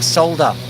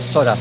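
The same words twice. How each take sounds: First: The word is said with an L sound. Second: The word is said without an L sound. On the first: "I actually pronounce it solder with an L in there" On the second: "Most people call it solder"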